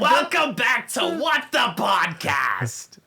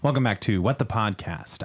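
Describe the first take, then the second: First: It is said in a put-on, somewhat nasal voice. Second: It is said in his ordinary speaking voice.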